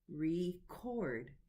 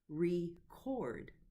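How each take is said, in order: First: The stress is on the second syllable. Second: The stress is on the second syllable.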